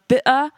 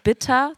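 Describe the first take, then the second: First: The t is dropped, British style. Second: The t sound is clearly pronounced.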